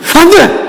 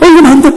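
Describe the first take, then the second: First: It is shouted harshly and angrily. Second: It is said gently and kindly.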